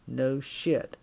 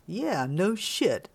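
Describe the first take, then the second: First: Lightly voiced tough guy; terse, understated "No shit"; longshoreman's low challenge. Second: Slow, swooping "Yeah, no shit"; oblivious echo. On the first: Longshoreman challenging a drunk woman, tersely menacing. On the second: Drunk woman echoing the longshoreman, blithely drawling. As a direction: stretch each word, blithely agreeing. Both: A narrator's reading.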